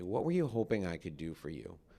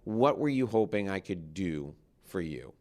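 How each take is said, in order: First: It is said in a soft voice. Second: It is said in a normal voice.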